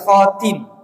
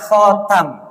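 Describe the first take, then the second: First: The vowel after the t is a front i. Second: The vowel after the t is an open a. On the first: "Wa kasriha, dan mengkasrohnya" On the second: "bi fathhi ta, dengan menfathata"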